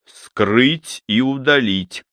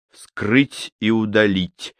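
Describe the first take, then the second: First: Very slow, emphatic repeated order; military self-command. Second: Slow, measured command to oneself; military crisp order. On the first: Surgeon charging at the disease, slow emphatic military command. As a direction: drive each word home slowly, like an order. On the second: Surgeon ordering himself as if before battle, military and precise. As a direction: give yourself a deliberate military order, word by word. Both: A narrator's reading. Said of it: "по-военному чётко приказал он сам себе".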